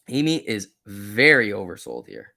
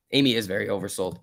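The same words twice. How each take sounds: First: VERY stretched out and punched; slow down and lean hard on VERY; stress on VERY. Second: Said in the usual way. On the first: Real, not acted. Streamer confirming Amy is oversold, VERY stressed.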